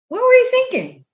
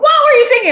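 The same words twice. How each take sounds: First: The question sounds gentle and kind. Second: The question sounds harsh and accusing. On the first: The speaker is simply curious about the reasoning. The speaker calls it right. "in the nicest way" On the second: The listener's choice seems foolish. The speaker calls it wrong. "Instead of going"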